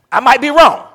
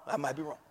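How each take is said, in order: First: High, loud comic aside; loud mock protest. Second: Quiet aside. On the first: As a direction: shout it to the congregation. Loud take of a repeated line. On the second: Preacher backs off his joke to the church in a soft aside. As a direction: drop it under your breath. Quiet take of the repeated line. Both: Shown as a demonstration.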